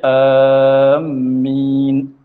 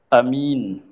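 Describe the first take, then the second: First: Long first vowel, doubled m sound. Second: Short first vowel, single m sound. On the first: "panjangkan hamzah serta tasydid akan mim" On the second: "Kalau A pendek"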